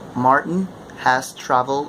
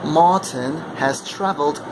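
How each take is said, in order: First: It is spoken in an American accent. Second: It is spoken in a British accent. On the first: "That would be American accent" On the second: "imitate the British accent with the same sentence"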